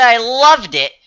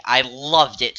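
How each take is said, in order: First: LOVED higher and punched; stress on LOVED. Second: Said in the usual way. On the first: Real, not acted. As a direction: hit the past tense in "loved". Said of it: "And I said I loved it".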